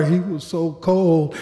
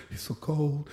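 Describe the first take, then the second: First: Said in the usual way. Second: Very soft, almost to himself; hushed aside. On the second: Real, not acted. Officer recalling the body during CPR, hushed aside. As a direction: drop right down to a murmur. Haunted aside between retold yells.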